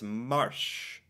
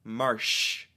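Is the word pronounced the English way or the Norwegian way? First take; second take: Norwegian; Norwegian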